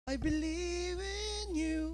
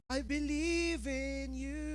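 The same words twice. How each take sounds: First: Higher, slow, rising praise; lifted worship. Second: Slow, soft, weighed-down praise; heavy-hearted worship. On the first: The heart finally lifting in worship, higher and slow. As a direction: let the praise finally lift. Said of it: "Hanggang tumaas ng kamay ang puso". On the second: David forcing praise with a heavy heart, slow and soft. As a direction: sing it like the heart won't lift. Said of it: "ang bigat ng puso". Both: Acted.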